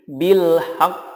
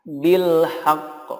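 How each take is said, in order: Both takes have the same delivery.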